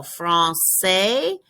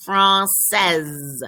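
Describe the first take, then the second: First: Français with a silent final s, ending on an open é; français, last letter not heard; masculine français. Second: Française ending in a clear z sound; française, final z heard; feminine française. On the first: Teacher says the masculine form slowly. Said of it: "The f-, masculine, you do not". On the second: Teacher contrasts the feminine form aloud. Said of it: "In the feminine, you hear the last letter". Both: Shown as a demonstration.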